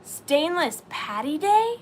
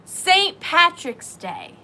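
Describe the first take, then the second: First: Slow, puzzled "Stainless Patty Day" with the question rising at the end; a baffled read of a garbled comment; puzzled misreading. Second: "Saint Patrick's Day" said slow and louder, "Saint" hit hardest; the penny drops, and she states it clearly; realizing correction. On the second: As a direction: land "Saint Patrick's Day" slowly, with a falling close. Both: Shown as a demonstration.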